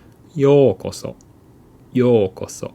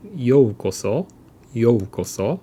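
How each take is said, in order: First: "ようこそ" as yookoso, with a long steady o. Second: "ようこそ" with an audible u after yo; separate o-u. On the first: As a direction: hold the よう of "ようこそ" as pure o, no u. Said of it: "we say". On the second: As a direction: say "ようこそ" as yo-u-koso. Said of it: "So instead of". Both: Shown as a demonstration.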